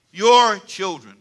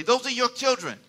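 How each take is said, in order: First: Put-on "Your children" drawn out slowly; slow and deliberate. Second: Said in the usual way. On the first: Shown as a demonstration. Pastor coaching the congregation, slow deliberate "Your children". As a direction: stretch "Your" and "children" word by word. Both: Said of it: "Can you say it slow?".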